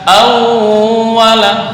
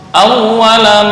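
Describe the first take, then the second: First: The doubled w is pressed and held long. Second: The doubled w is passed over quickly. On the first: The speaker calls it wrong. "bukan awwala" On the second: The speaker calls it right. "Biasa aja hanya lewat"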